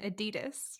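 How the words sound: It is said with an American pronunciation. "In America, we say Nike and Adidas"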